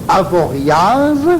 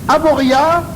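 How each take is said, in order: First: The final consonant is clearly pronounced. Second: The final consonant is left silent. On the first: An outsider is saying the name. "le touriste prononce" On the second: A local is saying the name. "le Savoyard dit"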